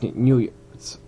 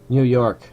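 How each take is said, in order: First: The name ends with an added s sound. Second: The name ends without an added s sound. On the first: The speaker calls it wrong. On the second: The speaker calls it right.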